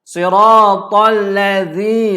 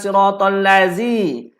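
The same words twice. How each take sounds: First: The consonant is a voiced 'th' with tongue forward. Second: The consonant is a plain 'z' sound. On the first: The speaker calls it right. "lidah ke depan" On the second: The speaker calls it wrong.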